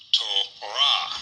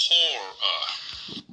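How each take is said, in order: First: Torah stressed on the last syllable, to-RAH; Hebrew Torah. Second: Torah stressed on the first syllable, TOR-ah; English Torah. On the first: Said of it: "this is pronounced". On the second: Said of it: "we usually say". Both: Shown as a demonstration.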